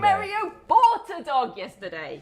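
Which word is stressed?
bought. The stress falls on the word bought. He bought it, he did not steal it.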